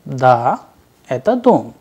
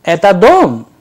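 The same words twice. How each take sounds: First: Said in the usual way. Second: ДОМ jumps sharply up in pitch and louder, then drops; question intonation. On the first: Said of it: "in affirmative, the answer was". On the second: Shown as a demonstration. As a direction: ask "Это дом" with a sharp high rise on ДОМ. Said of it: "with the intonation rising in the end".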